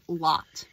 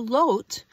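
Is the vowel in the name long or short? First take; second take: short; long. First: The vowel is a short O sound. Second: The vowel is a long O sound. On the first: The speaker calls it wrong. "a lot of people pronounce this name Lot, and it's not" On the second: The speaker calls it right. "we would have the sound O, the long O"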